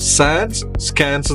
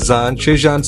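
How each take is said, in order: First: The second word begins with an sk sound. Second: The second word begins with an sh sound. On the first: The speaker calls it right. "ഇത് പ്രൊനൗൺസ് ചെയ്യേണ്ടത്" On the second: The speaker calls it wrong. "അങ്ങനെയല്ല പറയണ്ട"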